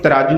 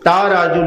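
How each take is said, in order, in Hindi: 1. पहला स्वर छोटा है। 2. पहला स्वर लंबा है। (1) "इनू तराजू नहीं" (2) "ता राजू लिखिया, ते ता राजू ही पढ़ांगे"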